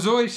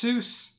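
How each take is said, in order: First: The name does not rhyme with goose. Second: The name rhymes with goose. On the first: This is how the family said the name. "Zoyce is the way the family pronounced the name" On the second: This is how Americans say the name. "Americans, being Americans, decided it's Seuss"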